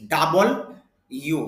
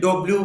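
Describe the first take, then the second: First: It is 'double' followed by a separate 'u'. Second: It starts with 'do' and ends in 'bliu'. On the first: The speaker calls it right. "শুদ্ধ উচ্চারণ হবে ডাবল ইউ" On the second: The speaker calls it wrong. "অনেকে ডব্লিউ বলেন"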